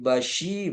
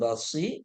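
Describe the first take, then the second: First: The middle consonant is a hushing 'sh' sound. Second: The middle consonant is a plain hissing 's' sound. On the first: The speaker calls it right. "tafashi bashi" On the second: The speaker calls it wrong. "bukan basi"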